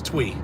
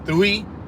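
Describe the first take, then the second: First: The name is said as one syllable, 'Twee'. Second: The name is said as two syllables, 'Stewie'. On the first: The speaker calls it right. "the correct way to say it is Twee" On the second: The speaker calls it wrong. "I thought I thought her name was Stewie"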